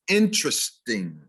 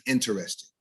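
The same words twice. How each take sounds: First: INTERESTING as IN-trist-ing, three syllables; correct stress. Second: INTERESTING as in-ter-EST-ing, four syllables; wrong stress. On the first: Diction teacher giving the real word, correct stress. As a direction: hit IN and squeeze interesting short. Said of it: "The word is interesting". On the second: Diction teacher showing the non-word, wrong stress. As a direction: hit REST in interesting. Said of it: "No such word as". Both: Shown as a demonstration.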